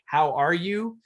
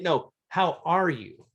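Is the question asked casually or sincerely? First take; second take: casually; sincerely. First: It is asked casually, as a throwaway. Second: It is asked sincerely, with real interest.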